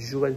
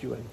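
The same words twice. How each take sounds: First: The name begins with a soft French 'j' sound. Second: The name begins with a different, non-French sound. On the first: This is how the spelling would read. The speaker calls it wrong. "ça se dit Johan sur papier" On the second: This is how the name is actually said. The speaker calls it right. "mais en fait, ça se prononce Johan"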